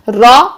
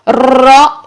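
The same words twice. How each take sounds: First: The r is rolled only briefly. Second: The r is trilled with many repetitions. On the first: The speaker calls it right. "ये ठीक है" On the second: The speaker calls it wrong. "ये गलत है"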